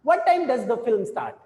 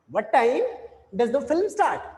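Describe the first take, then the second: First: Slow question that falls away on "start"; unhurried wh-question with the pitch falling on "start"; falling tune. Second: "time" lifted up, then "film start" falling down. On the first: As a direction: say it slowly and let the voice drop at the end. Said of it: "we would be finding that कि we are having a falling tone". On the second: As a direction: lift on "time", drop on "start". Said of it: "हम यहाँ पे तो थोड़ा सा up रहते हैं". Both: Shown as a demonstration.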